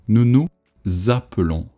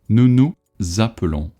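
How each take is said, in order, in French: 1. Le son z commence le mot appelons. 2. Le son z commence le mot appelons.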